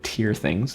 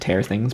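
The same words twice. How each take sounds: First: The vowel in 'tear' rhymes with 'ear'. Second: The vowel in 'tear' rhymes with 'air'. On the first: It means crying tears. The speaker calls it right. "as in tear ducts" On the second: It means to rip things. The speaker calls it wrong. "It's not to"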